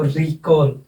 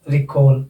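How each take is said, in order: First: recall as री-कॉल, with a long first syllable; secondary stress on री. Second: recall with short रि, accented कॉल; stress on second syllable. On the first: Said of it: "यानी कि दोबारा". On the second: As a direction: keep रि light and land on कॉल in recall. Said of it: "तो इसमें भी". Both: Shown as a demonstration.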